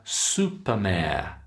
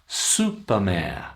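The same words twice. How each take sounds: Both takes have the same delivery.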